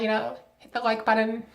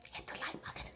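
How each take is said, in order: First: Said in the usual way. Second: Much softer whispered plea; hushed, insistent whisper. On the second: Real, not acted. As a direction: whisper it like a secret nudge. No, seriously, whispered repeat.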